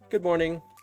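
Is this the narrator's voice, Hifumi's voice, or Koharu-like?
narrator. It is said in the narrator's plain voice.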